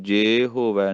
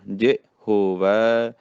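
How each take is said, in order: First: ਜੇ ਹੋਵੈ with ਜੇ as long "jay"; quick ਜੇ ਹੋਵੈ, full e in ਜੇ. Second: ਜੇ clipped as "ji", ਹੋਵੈ drawn out; brief ਜੇ, then slow long ਹੋਵੈ; short i sound. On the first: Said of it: "ਜੇ ਹੋਵੈ ਨਹੀਂ ਕਹਿਣਾ". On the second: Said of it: "ਸਿਹਾਰੀ ਦੀ ਆਵਾਜ਼". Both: Shown as a demonstration.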